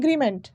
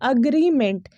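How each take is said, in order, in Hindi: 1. पहला स्वर 'eh' जैसा सुनाई देता है। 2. पहला स्वर 'uh' जैसा सुनाई देता है। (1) "ये अगेन गलत प्रोनाउंसिएशन है" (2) "जो सही उच्चारण होगा ना इस शब्द का"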